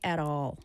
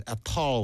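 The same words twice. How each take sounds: First: "at all" with an American tapped T; American accent. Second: "at all" with a crisp British T; British accent. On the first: Teacher shows how Americans say it, American "at all". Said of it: "미국 사람들이 at all". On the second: Student tries the British way for his teacher, British "at all". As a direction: say "at all" like a Brit, T sounded. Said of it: "영국 사람 발음이라 at all". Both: Shown as a demonstration.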